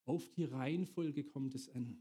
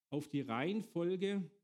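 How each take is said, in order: First: Said in the usual way. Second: Reihenfolge said slowly and leaned on, the phrase drawn out; slow down and hammer the word Reihenfolge; stress on Reihenfolge. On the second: Shown as a demonstration. Preacher stressing to the congregation that order matters: slow, weighted Reihenfolge.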